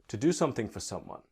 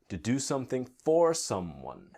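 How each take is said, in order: First: It is said at a faster, reduced pace. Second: It is said at a slower, careful pace.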